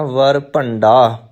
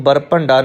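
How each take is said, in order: First: ਵਰ ਭੰਡਾ slowly, opening with "v"; v at the start. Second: ਬਰ ਭੰਡਾ opening with lips closed on "b"; b at the start. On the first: Teacher correcting learners, slow ਵਰ with initial "v". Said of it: "ਪਾਠ ਵਰ ਭੰਡਾ". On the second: Teacher showing learners the mistake, ਬਰ with initial "b". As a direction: say ਬਰ with a firm "b" sound. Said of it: "ਇਹਨੂੰ ਬਰ ਭੰਡਾ ਨਹੀਂ ਕਹਿਣਾ". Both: Shown as a demonstration.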